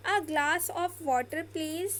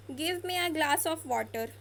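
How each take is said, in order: First: Slow, polite, rising at the end; polite demo. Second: Slow, ordering tone; order-like demo. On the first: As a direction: ask slowly and gently. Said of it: "कितना ज़्यादा polite लग रहा है". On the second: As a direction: say it slowly like an order. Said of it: "order जैसा लग रहा है". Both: Shown as a demonstration.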